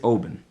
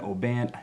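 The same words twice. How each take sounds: First: The vowels are reduced and rolled through quickly. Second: The vowels are pronounced fully and clearly. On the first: The speaker calls it right. "give like forty percent effort to the vowels and roll through them" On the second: The speaker calls it wrong. "I hate it when I hear people say Oban"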